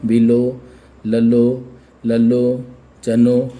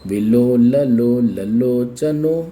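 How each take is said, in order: First: It is read slowly with pauses between parts. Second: It is read smoothly without pauses between parts. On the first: "हम विभाजन के बाद में रुकने का प्रयास करते हैं" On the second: "जब आप इसको कंटिन्यूटी में पढ़ते"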